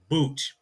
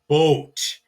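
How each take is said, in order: First: The vowel is an 'oo' sound. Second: The vowel is a long 'oh' sound. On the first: The speaker calls it wrong. "not boot" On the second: The speaker calls it right. "so it is boat"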